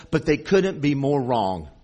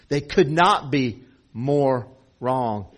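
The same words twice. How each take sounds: First: Said in the usual way. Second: Slow, spaced-out stress on each word; could NOT be more wrong, weighed word by word; emphatic restatement. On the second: Real, not acted. Preacher driving the point home to the congregation, slow and emphatic.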